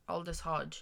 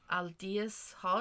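First: "Aldous Hodge." with Aldous said as "OL-dus", settled and sure; fixing the name after the correction, "Aldous" as "OL-dus"; corrected name. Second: Aldous said as "AL-dee-us", Hodge trailing off, asking; unsure guess, "Aldous Hodge?" with a rising question; unsure first try at the name. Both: Real, not acted. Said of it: "Oh, Aldous Hodge".

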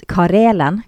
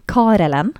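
First: "Karelen" with the stress on the second syllable, RE; unsure pronunciation. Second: "Karelen" with the stress moved to the first syllable, KA; alternative pronunciation. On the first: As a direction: try "Karelen" as ka-RE-len, tentatively. («Karelen» med trykk på andre stavelse) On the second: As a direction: offer "Karelen" as KA-re-len, tentatively. («Karelen» med trykk på første stavelse) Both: Shown as a demonstration. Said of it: "dette vet jeg ikke hvordan det uttales".

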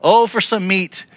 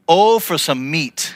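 First: Raised, whiny plea; lightly hammed-up whine; mock whining cry. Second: Slow, drawn-out whine; a hint of a pitiful whine; mock whining cry. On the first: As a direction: cry out for meat like a spoiled crowd. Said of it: "This is them crying out to God". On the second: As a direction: moan it like a hungry complainer. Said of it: "when you cried".

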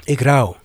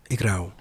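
First: Louder, heavy and resolute; firm declaration. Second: Low, hushed and heavy; quiet grief. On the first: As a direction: declare your grief out loud. Refrain again after long pause. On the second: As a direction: say it almost to yourself, sinking. Repeated refrain, dropped low. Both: Acted.

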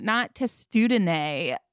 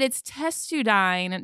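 First: "testudine" said slowly, ending with an "-ay" sound; wrong pronunciation. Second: "testudine" said slowly, ending "-dine" like "dine"; correct pronunciation. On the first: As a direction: drag out "testudine" as tes-too-duh-nay. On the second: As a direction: stretch out "testudine" as tes-TOO-dine. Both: Retold or imitated. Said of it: "teach me the correct pronunciation".

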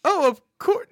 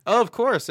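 First: High, loud, chirpy put-on voice; a sugary customer-service voice; over-the-top barista voice. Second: Said in the usual way. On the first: Shown as a demonstration. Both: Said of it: "No, I'm not gonna do that".

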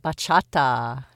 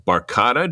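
First: "Bachata" said slowly, ba-CHA-ta, with no r; correct pronunciation. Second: "barcata" said with an r sound, wrong; mispronounced. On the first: Shown as a demonstration. Guest slowly corrects the host's "Bachata". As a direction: carefully model "Bachata" for him. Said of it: "Do I have that right?". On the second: Real, not acted. Host mangles the dance name "barcata" while listing her hobbies. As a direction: stumble on "barcata" as bar-CAH-ta. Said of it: "I knew I was gonna screw that up".

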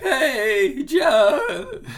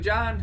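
First: Squeaky, much higher cracking call, laughing; exaggerated voice crack. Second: Voice crack. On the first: Shown as a demonstration. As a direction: overdo the crack on "John" for a laugh. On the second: Real, not acted. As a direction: voice cracks up high on "John". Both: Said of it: "Did you hear my voice crack?".

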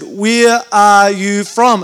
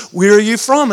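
First: Very slow, each word spaced out; slow, deliberate repeat. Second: Said in the usual way. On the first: Retold or imitated. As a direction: ask as if they don't understand English. Third asking, as if not understood.

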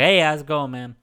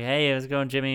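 First: Coworker's New Orleans greeting; loud, higher hail in a New Orleans accent; impression of a local coworker; Jimmy. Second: Said in the usual way. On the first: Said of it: "Uh, so it goes like this". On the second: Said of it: "And I'm like".

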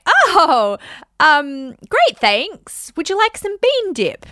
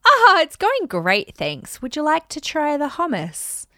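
First: Bright high chirpy deflecting voice; fake-cheerful party voice, much higher and louder; sweet deflection. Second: High slow sing-song cheer trailing off; fake-bright hostess voice, slow and high; sweet deflection. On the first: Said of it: "You can say". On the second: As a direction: breezily dodge the question with a high, slow lilt. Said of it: "You can go". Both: Shown as a demonstration.

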